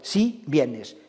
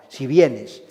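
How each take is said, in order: First: The first word si carries its own stress. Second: The first word si is unstressed, joined to vienes. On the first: It affirms that you do come. "la afirmación sí la lleva" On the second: It states a condition: if you come. "no tiene acento, no tiene golpe de voz, es como si fuera una sola palabra"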